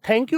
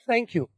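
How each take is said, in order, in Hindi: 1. पहली आवाज़ एक कड़ा, हवा वाला t है। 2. पहली आवाज़ एक नरम, सरसराने वाला th है। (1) "आज के बाद नहीं बोलना" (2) "आपने क्या बोलना है"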